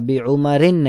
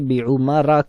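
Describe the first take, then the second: First: The word ends with an 'in' sound. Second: The word ends with a short 'a' vowel. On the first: The speaker calls it wrong. "बी उमरिन नहीं कहते" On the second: The speaker calls it right. "बल्कि बी उमरा कहते हैं"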